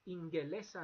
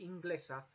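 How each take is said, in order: First: A vowel is said between the G and L. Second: The G and L are said together, no vowel. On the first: The speaker calls it right. "you have to have that E between" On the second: The speaker calls it wrong. "You can't say Inglesa because Basque doesn't like that"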